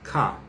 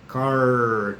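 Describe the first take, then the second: First: The final R is silent and not pronounced. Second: The final R is curled and clearly pronounced. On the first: This is how it is said in Britain. The speaker calls it right. "na Inglaterra você não vê isso... você não pronuncia o R no final" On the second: This is how people from a rural Brazilian region would say it. The speaker calls it wrong. "torcendo é desse jeito, igual o pessoal ali de... Piracicaba"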